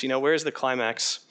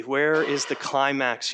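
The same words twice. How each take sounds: First: Said in the usual way. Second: Mock laboring. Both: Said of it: "they labor to say".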